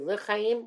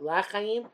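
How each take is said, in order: First: The first vowel is a short schwa. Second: The first vowel is a full 'a' sound. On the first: The speaker calls it right. "we say L'chaim with a Shva" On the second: The speaker calls it wrong. "V'lo B'Pasal, not L'chaim"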